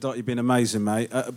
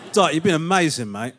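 First: The praise is said in an insincere tone. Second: The praise is said in a sincere tone. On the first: The speaker calls it wrong. "I didn't sound very sincere there" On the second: The speaker calls it right. "But I do mean it"

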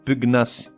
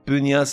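First: The gn is a hard g followed by n. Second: The gn is a soft ny sound. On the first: The speaker calls it right. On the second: The speaker calls it wrong.

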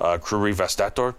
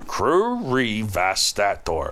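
First: The word is said very quickly. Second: The word is said at a slower pace.

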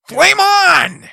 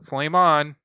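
First: It is said with lively, energetic inflection. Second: It is said flatly with little inflection.

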